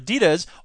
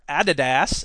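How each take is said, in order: First: The name is said the American way. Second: The name is said the European way.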